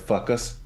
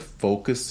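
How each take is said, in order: First: The first vowel sounds like 'uh'. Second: The first vowel sounds like 'oh'. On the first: The speaker calls it wrong. "he kept saying "fuck us,"" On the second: The speaker calls it right. "instead of saying "focus,""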